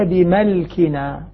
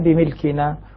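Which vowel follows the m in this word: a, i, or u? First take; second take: a; i. First: The m is followed by the vowel a. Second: The m is followed by the vowel i. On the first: "يقرؤونها بالفتح" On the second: "والباقون بالكسر"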